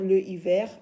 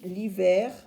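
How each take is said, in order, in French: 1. L'article est une syllabe séparée, placée avant la voyelle. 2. L'article est élidé et lié à la voyelle.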